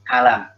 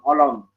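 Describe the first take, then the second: First: The vowels are thin and light, like a. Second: The vowels are thick and dark, like o. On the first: The speaker calls it right. "tapi alam tipis" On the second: The speaker calls it wrong. "Jangan seperti"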